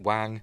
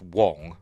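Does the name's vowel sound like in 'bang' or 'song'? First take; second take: bang; song. First: The vowel sounds like the a in bang. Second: The vowel sounds like the o in song. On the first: This is how it is said locally. "I pronounce it Wang" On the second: This is how the owner of the name says it. "it is pronounced Wong"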